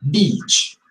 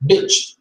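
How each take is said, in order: First: "Beach" with a long stretched ee; long ee vowel. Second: "bitch" with a short, clipped i; short i vowel. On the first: Teacher showing long ee in "Beach". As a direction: open the mouth wide for "Beach". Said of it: "look at my mouth". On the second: Teacher showing short i in "bitch". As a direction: say "bitch" with a quick lax i. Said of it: "Look at my mouth". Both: Shown as a demonstration.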